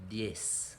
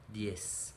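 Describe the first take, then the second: No difference in how they are said.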